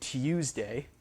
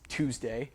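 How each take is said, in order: First: A y sound follows the t. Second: No y sound follows the t. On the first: This is how many British speakers say it. "with a y sound in there with a yod" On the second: This is how Americans say it. "we've dropped the yod on that"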